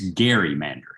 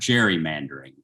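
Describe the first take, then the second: First: The word begins with a hard g sound. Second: The word begins with a soft j sound. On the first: The speaker calls it right. "it's Garymandering. Elbridge Gerry" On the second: The speaker calls it wrong. "it is not gerrymandering"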